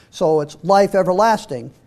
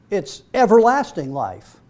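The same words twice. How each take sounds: First: Life stressed, everlasting trails off after it. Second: Everlasting stressed, life falls away after it. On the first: Preacher shifting the emphasis to life, stress on life. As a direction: put the weight on the word life. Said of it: "the emphasis is on the life here". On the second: Preacher stressing how long life lasts, stress on everlasting. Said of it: "The emphasis is on how long that life is". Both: Shown as a demonstration.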